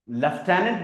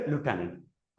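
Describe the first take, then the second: First: It is pronounced with an f sound, leftenant. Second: It is pronounced without f, American lootenant.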